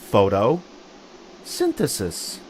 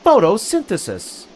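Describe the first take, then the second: First: It is said faster in two parts. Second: It is said fast as one whole word. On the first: "Say it with me a little faster" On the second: "Now say it faster and all together"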